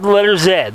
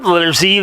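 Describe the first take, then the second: First: The letter is said as zed. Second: The letter is said as zee. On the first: This is the British and Canadian way of saying the letter. "they have the letter Z" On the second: This is the American way of saying the letter. "they don't have the letter Z"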